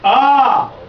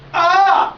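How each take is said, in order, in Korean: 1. 힘이 있으면서도 자연스럽고 억지스럽지 않습니다. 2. 배에 긴장을 주고 목소리를 밀어내고 있습니다. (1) "자연스러우면서도 힘이 가게 하는" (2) "배에 힘을 줘야 된다 그러는데 ... 이게 잘못된 거죠"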